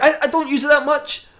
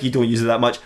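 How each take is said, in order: First: High, stammered denial; mock-sheepish protest, pitched up; defensive excuse. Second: Low, unimpressed repetition; deadpan disbelief, pitch dropped; sceptical echo. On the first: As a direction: squeak out a guilty excuse. Batman makes defensive excuse. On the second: Acted. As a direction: throw the excuse back drily. Echoes the excuse back, unconvinced.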